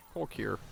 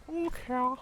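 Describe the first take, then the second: First: Said in the usual way. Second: Cork here squeaked up much higher in a put-on voice; high mock voice. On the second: Shown as a demonstration. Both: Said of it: "You're in Cork".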